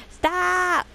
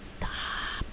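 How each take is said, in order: First: High-pitched squealed plea; much higher, insistent exclamation; playful protest. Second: Soft whispered plea; barely voiced, under the breath; hushed. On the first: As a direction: cry it out high, vowel stretched. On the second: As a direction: whisper it, drawing the vowel out. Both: Real, not acted. Playful repeated pleas to stop.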